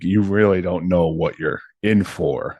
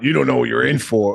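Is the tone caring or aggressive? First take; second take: caring; aggressive. First: It sounds caring and apologetic. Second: It sounds aggressive and threatening.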